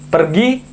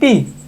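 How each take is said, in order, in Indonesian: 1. Kata itu diucapkan lengkap, dengan bunyi r. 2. Kata itu dipotong menjadi satu suku kata.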